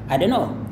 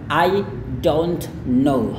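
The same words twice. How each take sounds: First: 'Don't' is reduced to roughly 'do'. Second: Every sound in 'don't' is fully pronounced. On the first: "makanya ini kadang hanya bunyi do aja" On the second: "bagusnya sesuai dengan standar bahasa Inggris yang tepat"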